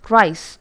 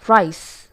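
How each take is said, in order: The two takes are said the same way.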